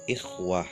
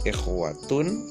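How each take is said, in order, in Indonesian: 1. Kata ini berakhir dengan bunyi h yang lembut. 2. Kata ini berakhir dengan akhiran -tun penuh.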